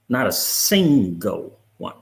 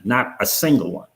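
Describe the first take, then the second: First: "not a single one" slowed right down, stress on "single"; slow emphatic. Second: Said in the usual way. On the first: Real, not acted. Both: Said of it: "repeated for emphasis".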